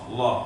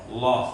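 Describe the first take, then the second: The two takes are said the same way.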